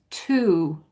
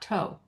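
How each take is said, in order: First: The vowel is a long U sound. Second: The vowel is a long O sound. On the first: The speaker calls it right. "you're pronouncing it with a long U" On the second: The speaker calls it wrong. "not toe"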